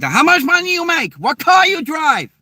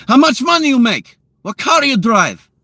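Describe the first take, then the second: First: Very high-pitched mock Hong Kong girl; Hong Kong accent. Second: Put-on high, louder Russian-accented demand; mock Russian woman firing off nosy questions. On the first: Girls from Hong Kong grilling a guy, squeaky mock accent. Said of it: "girls from Hong Kong are like". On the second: Russian women grilling a guy they meet, high mock Russian accent. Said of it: "the Russian women ... they're like".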